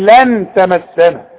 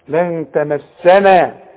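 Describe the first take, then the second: First: The n is pronounced fully with the tongue. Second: The n is hidden and nasalized, all light. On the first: The speaker calls it wrong. "اوعى تضرب لسانك في حلق بقك وتظهر لي النون" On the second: The speaker calls it right. "يبقى اغن واخفي ... كل الكلمة مرققة"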